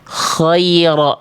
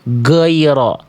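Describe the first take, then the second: First: The first sound is airy and voiceless, like kh. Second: The first sound is blocked, close to a g. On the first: "dia keluar nafas" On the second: "mampet ghainnya"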